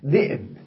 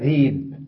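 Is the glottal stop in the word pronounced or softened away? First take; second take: pronounced; softened. First: A glottal stop is heard after the first consonant. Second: A long vowel replaces the glottal stop.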